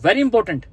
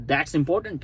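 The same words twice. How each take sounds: First: Very punched louder; insisting that it matters, with stress on very. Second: Said in the usual way. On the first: Shown as a demonstration. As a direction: lean hard on very, falling at the end.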